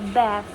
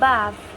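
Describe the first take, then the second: First: It is said in an American accent. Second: It is said in a British accent. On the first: "in American English, they pronounce with bath" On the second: "In British, they pronounce bath"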